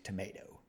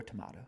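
First: "tomato" with a long AY in the middle; "tomato" the American way, tuh-MAY-toh; tomayto pronunciation. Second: "tomato" with a broad AH in the middle; "tomato" the British way, tuh-MAH-toh; tomahto pronunciation. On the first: Contrasts two pronunciations of tomato. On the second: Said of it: "Or tomato, whatever you jive with". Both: Shown as a demonstration.

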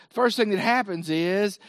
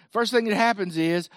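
No difference in how they are said.

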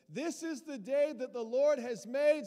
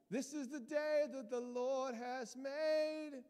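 First: Lifted, loud hallelujah-style declaration; loud proclaiming. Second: Put-on slow high sung line of the old song. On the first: Acted. Preacher quoting a psalm to the congregation, loud and ringing. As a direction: call it out to the church. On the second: Preacher singing the familiar church song to Terry, slow and high. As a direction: sing it out slowly.

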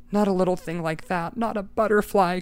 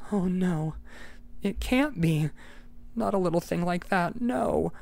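First: Cried out. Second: Whisper-close horror, lightly acted; dismayed murmur. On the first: Acted. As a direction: plead against the truth. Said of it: "cried Eccles". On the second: Eccles horrified at the butterfly.

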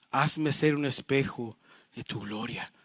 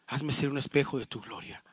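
First: Hushed, low, drawn-out closing line; slowly, softly, pausing before "de tu gloria"; slow solemn reading. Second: Low, soft, in one unbroken phrase; quiet reflective repeat. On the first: Pastor ending the Puritan's prayer, slow and solemn. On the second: Pastor repeating the prayer's line for reflection, quiet and low. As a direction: softly restate it without drawing it out. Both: Real, not acted.

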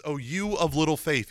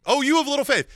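First: Said in the usual way. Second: Higher, louder mock rebuke. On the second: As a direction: scold Peter, raising the voice on "you". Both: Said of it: "he rebuked him".

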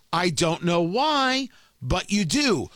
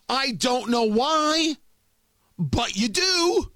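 First: Said in the usual way. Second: Slow, higher and deliberate; slow, pointed, higher jab; pointed accusation. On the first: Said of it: "same line again, plainer". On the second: Acted. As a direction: lean on each word, daring them. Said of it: "repeated line, slower, higher".

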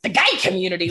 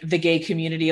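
First: Mock announcement. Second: Said in the usual way. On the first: Brain echoing dad's phrase every time, mock grand announcement. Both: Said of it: "immediately my brain is like".

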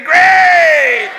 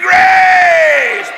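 First: High, loud call of Grace; leading a shout. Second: High, loud Grace held longer; repeated shout. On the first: Preacher leading the congregation in a shouted Grace. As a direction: call it out for the church to echo. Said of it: "somebody say". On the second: Preacher urging the congregation to shout Grace once more. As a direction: call it out once more, fuller. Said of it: "Say it again". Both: Shown as a demonstration.

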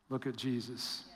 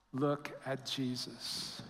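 First: Much softer, hushed answer. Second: Much softer and slow, hushed; soft slow answer. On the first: Preacher answering his own question, hushed. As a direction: drop the voice to a hush. Sermon refrain after question. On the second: Preacher closing the refrain, slow and hushed. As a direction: linger over it, hushed. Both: Acted.

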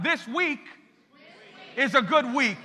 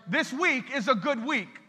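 First: One more time, stronger. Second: Said in the usual way. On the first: Shown as a demonstration. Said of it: "One more time". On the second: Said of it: "Now say".

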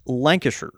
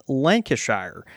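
First: "Lancashire" with a weak "shur" ending; British pronunciation. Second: "Lancashire" with a full "shire" ending; mispronounced Lancashire. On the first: Correcting the co-host, "Lancashire" ending in short "shur". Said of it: "it's pronounced Lancashire". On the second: Correcting the co-host, "Lancashire" ending like the word "shire". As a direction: say "Lancashire" as LANK-a-shire, long i. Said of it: "it's the same with". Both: Shown as a demonstration.

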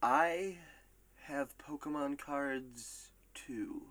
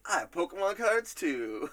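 First: Slow, spaced-out reading, dropping softer at the end; drawn-out quote. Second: Higher, quicker mock outburst; imitated blurt. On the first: Acted. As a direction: stretch each phrase with pauses between. Reads a player's quote drawn out. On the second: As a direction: blurt it out in one go, pitched up. Retells the surprising remark, quicker.

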